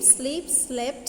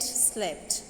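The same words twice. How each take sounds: First: Said in the usual way. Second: Soft unvoiced repeat of slept; whispered echo. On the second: Shown as a demonstration. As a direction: whisper the word slept back.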